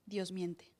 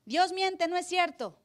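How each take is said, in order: First: Said in the usual way. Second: Voz aguda y burlona de tentador; burla de Satán. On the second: Retold or imitated. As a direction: imita con sorna al diablo que niega la palabra. Pastor voicing Satan's lie. (el pastor imita a Satán que contradice a Dios, burlón)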